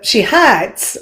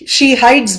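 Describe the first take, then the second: First: The vowel is one steady sound. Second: The vowel glides between two sounds. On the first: "If you look at the Southerners accent" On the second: "When we say hide"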